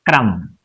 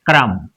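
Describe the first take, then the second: No difference in how they are said.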